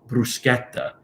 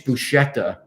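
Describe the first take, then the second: First: It is said with the Italian pronunciation. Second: It is said with an Americanized pronunciation. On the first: The speaker calls it right. "Get the correct pronunciation" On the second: The speaker calls it wrong. "you just spoiled the whole thing for me"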